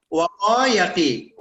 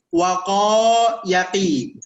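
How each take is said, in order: First: Said in the usual way. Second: Slow demo. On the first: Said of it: "Harful mu'tal kan?". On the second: Shown as a demonstration. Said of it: "Atau misalnya begini".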